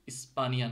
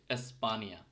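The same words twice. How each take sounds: First: "ইস্পানিয়া" wrongly starting with ই; the wrong take, "ইস্পানিয়া" opening on ই; mistaken I sound. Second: "এসপানিয়া" starting with এ, not ই; careful model of "এসপানিয়া" with initial এ; correct Finnish E. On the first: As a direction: show the error, "ইস্পানিয়া" with i for e. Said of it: "ইস্পানিয়া না কিন্তু". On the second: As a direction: open "এসপানিয়া" on a clear e. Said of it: "এটা কিন্তু এর মতো উচ্চারণ হচ্ছে". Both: Shown as a demonstration.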